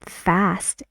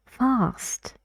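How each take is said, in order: First: Fast with a flat front a as in cat; American fast. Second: Fast with a long open back ah; Fast higher, British style. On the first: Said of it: "fast in American English". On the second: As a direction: say Fast as fahst, not with a flat a. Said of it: "that word is fast in British English". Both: Shown as a demonstration.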